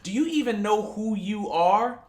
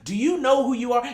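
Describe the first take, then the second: First: It is said at a normal, quieter volume. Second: It is said louder, projected to the back.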